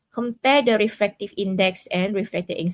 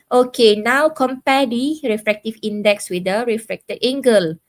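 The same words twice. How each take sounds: First: Said in the usual way. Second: Raised voice to get the students' attention; louder call to class. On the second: Real, not acted. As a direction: project it out to the whole class. Teacher calls on online class.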